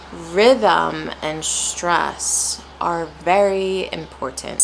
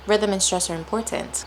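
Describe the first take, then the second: First: "rhythm and stress are very important" drawn out with rises and falls; slow, emphatic stress on RHYTHM and STRESS. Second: "Rhythm and stress are important" in an even, flat tone; level, unstressed read at normal pace. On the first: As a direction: stretch the stressed words, dropping off on "important". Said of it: "not many rises or falls, versus". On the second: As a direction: say it with no rises or falls. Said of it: "it's kind of flat". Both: Shown as a demonstration.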